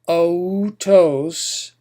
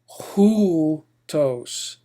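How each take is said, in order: First: The word starts directly with the vowel. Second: The word starts with a breathy H sound. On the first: The speaker calls it wrong. "instead of otos" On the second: The speaker calls it right. "a rough H sound"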